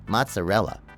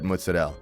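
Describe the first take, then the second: First: It uses the mainstream American pronunciation. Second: It uses the Italian American family pronunciation. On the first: This avoids confusing people in restaurants. "just to avoid I just go mozzarella" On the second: This is how the family says it at home. "growing up, Italian American, Ma would only say mozzarella. So I only learned to call it mozzarella"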